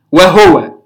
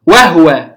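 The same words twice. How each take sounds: First: وهو read with a silent ha as wahwa; وهو pronounced wahwa with sukun on the ha. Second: وهو read with the ha voiced in full as wahuwa; وهو pronounced wahuwa, full vowel on the ha. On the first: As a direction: say وهو as wah-wa, no vowel on the ha. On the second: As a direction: say وهو as wa-hu-wa, the ha carrying a short u. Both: Shown as a demonstration. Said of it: "بإسكان الهاء".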